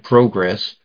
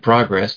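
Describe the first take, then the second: First: The word is said with a British pronunciation. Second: The word is said with an American pronunciation. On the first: "they may say progress" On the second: "we say progress"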